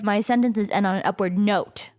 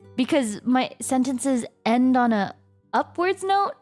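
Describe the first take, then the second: First: The voice falls at the end. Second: The voice rises at the end.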